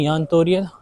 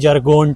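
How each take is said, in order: First: The name begins with a 'y' sound. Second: The name begins with a hard 'j' sound. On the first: "बोलते हैं यान तोरियत" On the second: "वो बोला था इसका नाम है जरगोंट"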